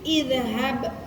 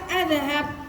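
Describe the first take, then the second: First: The word begins with an 'i' vowel. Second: The word begins with an 'a' vowel. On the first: The speaker calls it right. "tapi idhab" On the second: The speaker calls it wrong. "jangan dibaca adhab"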